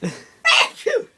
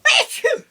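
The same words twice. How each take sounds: First: Loud high sneeze; a big real sneeze; sneezing. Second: Loud sudden sneeze; a big real sneeze; sneezing. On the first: Sneezing fit, laugh before. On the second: Sneezing fit. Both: Real, not acted.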